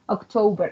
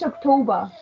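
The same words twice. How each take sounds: First: It is said in a non-British accent. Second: It is said in a British accent.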